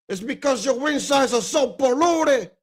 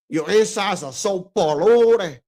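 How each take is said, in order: First: Put-on raised Cuban gangster accent. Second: Put-on slow, drawn-out Cuban accent. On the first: Retelling the movie, mock Cuban accent. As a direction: give it the Scarface Cuban lilt. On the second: Showing friends how he said it, slow Cuban accent. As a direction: stretch it out in a Scarface Cuban accent. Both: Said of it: "with the accent".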